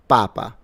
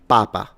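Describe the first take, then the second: First: The stress is on the first syllable. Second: The same.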